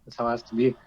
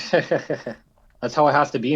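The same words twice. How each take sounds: First: Said in the usual way. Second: Slow, said through a laugh. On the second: Real, not acted. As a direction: laugh while agreeing.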